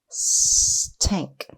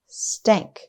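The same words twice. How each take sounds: First: The word is stretched out slowly, sound by sound. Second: The word is said quickly as one whole. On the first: "Tap and stretch again" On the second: "Say it fast"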